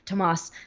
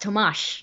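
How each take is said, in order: First: The name ends with an 's' sound. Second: The name ends with an 'sh' sound. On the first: The speaker calls it wrong. "not Tomas" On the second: The speaker calls it right. "his name is pronounced Tomash"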